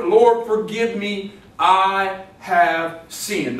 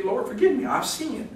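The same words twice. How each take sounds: First: Very drawn-out, deliberate prayer; solemnly stretched I HAVE SINNED; slow confession. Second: High, small-voiced prayer; mock contrite little prayer; acted penitent plea. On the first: Acted. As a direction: weigh each word, pausing between them. Repeats prayer as continual confession. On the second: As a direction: plead lightly up high, trailing softer. Acts a believer's quick prayer.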